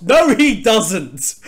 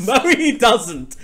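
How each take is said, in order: First: Slow, loud, emphatic denial; loud protest. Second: Laughing through the denial. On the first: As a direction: draw out the no in protest. Denies Sonic swims fast. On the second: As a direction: protest breaking into laughter. Repeats denial while laughing. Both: Real, not acted.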